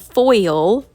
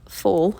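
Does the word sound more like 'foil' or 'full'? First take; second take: foil; full. First: The word has a clear oi glide, like boil. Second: The word sounds like full, with no oi glide. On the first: "maybe y'all can understand that better" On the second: "I know you all are going to come at me for saying it like that"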